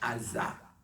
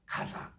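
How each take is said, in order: First: The word begins with a vowel sound. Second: The word begins with a g sound. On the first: This is how Hebrew speakers say it. "유대인들은요 가라고 읽지 않고 그냥 아라고 읽습니다" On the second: This is how Arabic speakers say it. "이 가사라는 이 용어는 아랍 사람이 읽는 말이에요"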